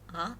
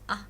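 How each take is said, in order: First: The pitch rises from low to high. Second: The syllable is short and unstressed. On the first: "The tone is rising" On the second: "That means unstressed"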